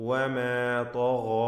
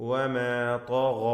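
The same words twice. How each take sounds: The two takes are said the same way.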